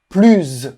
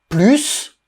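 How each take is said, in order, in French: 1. Le s final se prononce z. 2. Le s final se prononce s.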